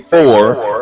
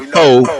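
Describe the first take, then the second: First: The word is said in standard pronunciation. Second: The word is said in vernacular pronunciation. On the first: The speaker is code switching for outsiders. "How many times do we say for instead of" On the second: This is the community's own way of speaking. "when we know foe is our word"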